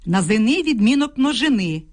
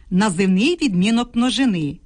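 The two takes are said the same way.

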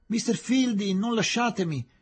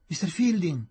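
First: Much higher, louder pleading cry; broken-voiced plea. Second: Higher, louder cry of his name; desperate cry. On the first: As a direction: beg him not to leave you. (supplica gridata con voce rotta) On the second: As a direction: call after him as he leaves. (grido disperato, voce rotta) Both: A narrator's reading. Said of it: "gridò la voce rotta di Aziz".

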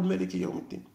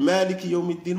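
First: مالك said short as malik. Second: مالك with a long first vowel; long a in maalik. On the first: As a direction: say مالك without lengthening the a. (ملك بدون مد) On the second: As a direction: stretch the a in مالك. (مالك بمد الألف) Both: Shown as a demonstration. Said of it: "مرة يقول".

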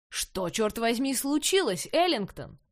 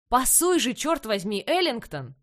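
First: Slow angry coach growl. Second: Loud furious coach yelling. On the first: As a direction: growl the question, barely holding back. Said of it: "прорычал тренер". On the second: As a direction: bark it across the field. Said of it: "начал вопить". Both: A narrator's reading.

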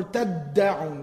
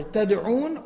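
First: تَدَّعُونَ with a long, forceful middle d; stronger doubled consonant. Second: Said in the usual way. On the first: Shown as a demonstration. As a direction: stress and hold the doubled d in تَدَّعُونَ. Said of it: "sounds stronger". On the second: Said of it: "what sounds stronger".

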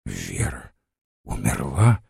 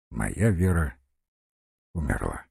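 First: Low Вера, then умерла rising; questioning echo. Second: Low, soft, with falling end on умерла; quiet statement. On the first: Guest questioning the news of Vera's death, rising. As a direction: repeat it haltingly as a question, умерла lifting. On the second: General telling of his Vera's death, quietly. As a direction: say it quietly, pausing before умерла. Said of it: "тихо молвил". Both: A narrator's reading.

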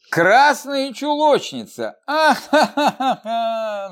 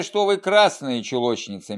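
First: High, slow, showy laughter breaking over красные; hammed-up mocking cackle after красные чулочницы; deliberate loud laugh. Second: A light, mild quip with красные stressed; gentle joke. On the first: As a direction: laugh theatrically, throwing her head back. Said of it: "нарочито захохотала Ада". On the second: Acted. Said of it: "мягко отшутился Савенков".

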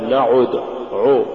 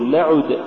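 First: نعد with the u wrongly thickened to o; heavy damma error. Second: نعد with a pure u after the ayn; light damma. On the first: Tajweed teacher showing what not to say, heavy damma. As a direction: darken نعد towards na'od. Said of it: "ولا تقل". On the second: Tajweed teacher giving the form to say, light damma. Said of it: "قل". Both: Shown as a demonstration.

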